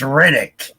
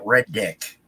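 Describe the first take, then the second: First: The name is said as one word. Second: The name is split into two separate words. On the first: This is the proper name. The speaker calls it right. "no, it's Reddick" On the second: This is how most people say it. The speaker calls it wrong. "everybody calls it Red Dick"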